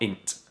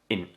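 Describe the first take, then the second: First: A T sound is heard at the end. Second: No T sound is heard at the end. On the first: The speaker calls it wrong. "It's not int" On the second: The speaker calls it right. "we do not pronounce that T. We say in"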